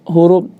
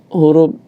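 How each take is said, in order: No difference in how they are said.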